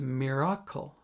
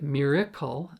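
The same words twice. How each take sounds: First: The vowels are pronounced clearly and distinctly. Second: The vowels are glossed over in an American way. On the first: The speaker calls it right. "it properly is pronounced miracle" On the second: The speaker calls it wrong. "We will often say it miracle"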